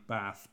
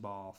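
First: The vowel in bath is short. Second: The vowel in bath is long.

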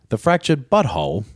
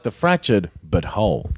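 First: 'But Whole' runs together like one word. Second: 'But' and 'Whole' are kept clearly apart. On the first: The speaker calls it wrong. "that sounded more" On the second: The speaker calls it right. "That's it"

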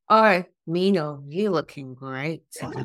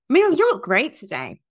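First: It sounds like a suggestive, creepy compliment. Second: It sounds like a plain, friendly compliment.

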